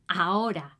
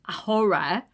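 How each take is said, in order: First: The word begins with no h sound. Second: The word begins with an h sound. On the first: The speaker calls it right. "It's ahora" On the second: The speaker calls it wrong. "We don't say ahora"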